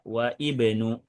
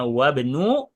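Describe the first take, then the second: First: The 'i' vowel is pronounced as a separate syllable. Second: The 'i' vowel is dropped, linking into wabnu. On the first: The speaker calls it wrong. "tidak wa ibnu" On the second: The speaker calls it right. "Kita bacanya wabnu"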